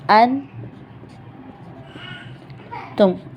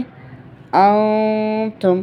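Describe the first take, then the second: First: The n is pronounced fully and clearly. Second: The n is hidden as nasalization before t. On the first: The speaker calls it wrong. "ऐसे नहीं पढ़ना हमें" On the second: The speaker calls it right. "ऐसे पढ़ना है"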